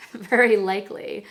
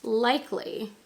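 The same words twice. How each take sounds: First: Very said louder and pushed; very likely, with very punched; stress on very. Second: Said in the usual way. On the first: Shown as a demonstration. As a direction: lean hard on the word very, jokingly. Corrects herself with stronger emphasis.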